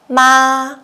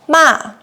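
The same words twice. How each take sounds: First: The pitch stays high and level. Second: The pitch falls sharply from high. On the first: It means mother. "we use the first tone" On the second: It means scold. "we use the fourth tone"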